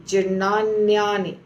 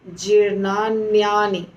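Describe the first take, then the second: Both takes have the same delivery.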